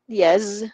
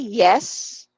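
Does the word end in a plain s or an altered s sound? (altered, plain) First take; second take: altered; plain. First: The word ends in an altered s sound. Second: The word ends in a plain s sound. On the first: The speaker calls it wrong. "Not yes" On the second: The speaker calls it right. "It's a simple S"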